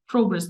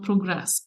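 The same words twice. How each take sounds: First: The stress is on the first syllable. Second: The stress is on the second syllable. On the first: It is the noun. The speaker calls it right. "progress, the noun" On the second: It is the verb. The speaker calls it wrong. "not progress"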